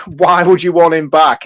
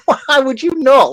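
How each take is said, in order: First: Dismissive, mocking quote of the question; quoting the villain. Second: Higher, slow, disbelieving comeback; incredulous retort. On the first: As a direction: read the villain's line with disdain. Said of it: "but even just to be like". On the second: Retold or imitated. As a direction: stretch it out in sheer disbelief. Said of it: "I'm like".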